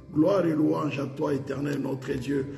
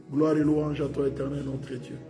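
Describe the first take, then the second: No difference in how they are said.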